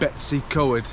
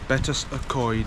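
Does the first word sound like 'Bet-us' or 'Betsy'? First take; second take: Betsy; Bet-us. First: The first word sounds like 'Betsy'. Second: The first word sounds like 'Bet-us'. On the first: The speaker calls it wrong. "my family would always pronounce it Betsy Coed. Well, that's wrong" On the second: The speaker calls it right. "It is Betus"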